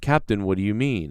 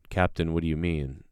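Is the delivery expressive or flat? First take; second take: expressive; flat. First: It is said expressively, with lively emotion. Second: It is said flatly, with little expression. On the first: The speaker calls it wrong. "that's too already too expressive" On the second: The speaker calls it right. "he's gonna work really hard to deadpan his face"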